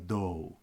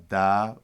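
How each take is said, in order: First: The syllable has a rounded 'o' vowel. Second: The syllable has an open 'a' vowel. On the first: This is the Western tradition's pronunciation. "the Western Ma'arboya tradition uh, pronounces it as an O" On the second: This is the Eastern tradition's pronunciation. "we pronounce this as A"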